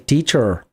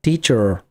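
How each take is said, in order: Both takes have the same delivery.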